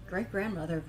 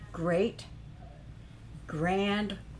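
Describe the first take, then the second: First: It runs together as one compound word. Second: Each part is said as a separate word. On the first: The usual family relation. The speaker calls it wrong. "it's not great grandmother" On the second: A great, grand, revered mother figure. The speaker calls it right. "It's three separate things"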